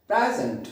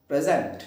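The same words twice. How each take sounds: First: present said PRAE-zunt, open first vowel, weak end; stress on first syllable. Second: present said pre-ZENT, short first syllable; wrong stress, second syllable. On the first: Teacher modelling the noun, present with first-syllable stress. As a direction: lean on the start of present. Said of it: "इसका जो पहला portion है". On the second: Teacher contrasting forms, present stressed on second syllable. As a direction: put the weight on the end of present. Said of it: "present नहीं". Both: Shown as a demonstration.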